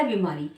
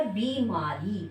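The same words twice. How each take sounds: First: बीमारी with a short, quick first i; as spoken. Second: बीमारी slowly, with a long ee in बी; as written. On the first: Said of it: "बोला गया था". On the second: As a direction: draw out बीमारी syllable by syllable, "bee-maa-ree". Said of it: "लेकिन लिखा गया था". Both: Shown as a demonstration.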